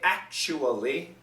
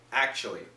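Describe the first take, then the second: First: It is said quickly with all four syllables. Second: It is said with fewer than four syllables. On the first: "four syllables, very quick, but four syllables" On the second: "many Americans will say actually"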